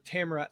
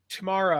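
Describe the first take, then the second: First: Tamara stressed on the first syllable, TAM-ruh; alternative pronunciation. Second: Tamara stressed on the middle syllable, tuh-MAR-uh; alternative pronunciation. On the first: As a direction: say Tamara to rhyme with camera. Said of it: "Like camera". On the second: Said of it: "Let me know how you pronounce that". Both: Shown as a demonstration.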